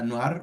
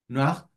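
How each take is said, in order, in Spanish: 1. Se pronuncia al estilo español. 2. Se pronuncia al estilo francés.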